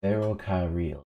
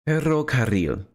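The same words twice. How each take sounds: First: Said in the usual way. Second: Higher "Ferrocarril" with both double Rs heavily trilled; exaggerated rolled Rs. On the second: Shown as a demonstration. Speaker proving they can say it, exaggerated trilled "Ferrocarril". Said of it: "exaggerated way".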